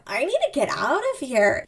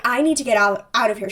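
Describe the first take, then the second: First: Contained, embarrassed urge to flee; play-acted inner panic, not shouted; acted urgent self-talk. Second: Said in the usual way. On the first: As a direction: say it as if to yourself. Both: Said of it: "She says that out loud".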